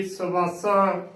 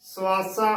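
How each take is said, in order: First: ਸਵਾਸਾ slowly as "sa-baa-saa"; slow, mistaken three-syllable ਸਵਾਸਾ; wrong pronunciation. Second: ਸਵਾਸਾ as "suaasaa", short u; correct pronunciation. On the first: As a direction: put a full "a" after the s in ਸਵਾਸਾ. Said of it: "ਨਾ ਕਿ". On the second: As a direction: blend the s into "waa" in ਸਵਾਸਾ. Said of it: "ਉਚਾਰਨ ਕਰਨਾ ਹੈ". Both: Shown as a demonstration.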